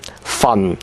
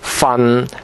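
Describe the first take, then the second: First: It is said in Cantonese tone four. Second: It is said in Cantonese tone six. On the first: "It is number four" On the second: "It is number six"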